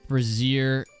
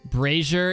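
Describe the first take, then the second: First: The word is said with a British pronunciation. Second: The word is said with an American pronunciation. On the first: "Brazier is UK" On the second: "Brazier is American"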